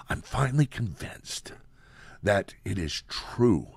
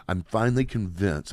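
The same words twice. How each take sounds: First: Lightly voiced hushed Biden whisper; hint of a breathy political whisper, slow; Joe Biden whisper. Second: Said in the usual way. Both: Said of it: "I'm gonna do the Joe Biden".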